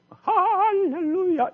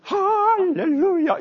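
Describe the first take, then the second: First: High, slow, drawn-out rousing cry; rousing hallelujah. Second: High and loud, stretched slow; rousing hallelujah. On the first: Conductor rousing the choir, a soaring drawn-out shout. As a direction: lift the choir with a soaring call. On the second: Conductor cueing the choir, loud and stretched. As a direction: belt it to wake the whole choir. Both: Shown as a demonstration. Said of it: "이렇게 나오거든요".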